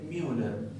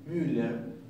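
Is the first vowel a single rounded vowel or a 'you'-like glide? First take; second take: 'you' glide; rounded vowel. First: The first vowel is a glide like 'you'. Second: The first vowel is one tight rounded vowel. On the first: "mucha gente dice Müller, Müller, y se asemeja un poco" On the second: "el apellido Müller"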